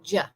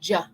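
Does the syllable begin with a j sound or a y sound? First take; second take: J sound; J sound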